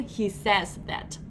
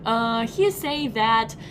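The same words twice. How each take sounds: First: Slow, clear "he says that" with the s; "says" said carefully with its final s; corrected version. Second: Slow demo of the wrong "he say that"; "he say" with no s on the verb, drawn out; deliberate mistake. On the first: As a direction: model the fixed "he says". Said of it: "I mean". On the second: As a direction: say "he say that" slowly, as a learner's slip. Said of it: "you just made a mistake". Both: Shown as a demonstration.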